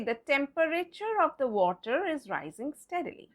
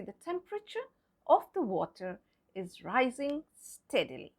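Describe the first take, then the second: First: TEMPERATURE with the E sounded, tem-per-ih-cher; four syllables in TEMPERATURE, tem-per-ih-cher; pronounced E. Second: TEMPERATURE as tem-pruh-cher; silent E. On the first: Teacher shows what not to say, TEMPERATURE as tem-per-ih-cher. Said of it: "We will not say". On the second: Teacher models the sentence correctly, TEMPERATURE as tem-pruh-cher. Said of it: "we'll say". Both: Shown as a demonstration.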